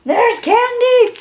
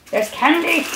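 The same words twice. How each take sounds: First: Candy said high and loud; delighted squeal at the candy; higher, louder gleeful repeat; excited squeal. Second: Said in the usual way. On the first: Real, not acted.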